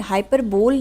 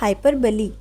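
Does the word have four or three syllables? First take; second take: three; four. First: The word ends on 'bole', three syllables. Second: The word ends with 'lee', four syllables. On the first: The speaker calls it wrong. "हाइपरबोल नहीं बोलेगा कोई इसे" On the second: The speaker calls it right. "इसका pronunciation जो है वो है हाइपरबली"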